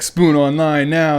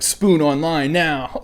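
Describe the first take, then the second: First: Slow louder barked order; drill instructor command. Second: Slow barked order; drill instructor command. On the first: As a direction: bark it again, sharper. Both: Retold or imitated.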